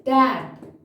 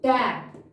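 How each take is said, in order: The two takes are said the same way.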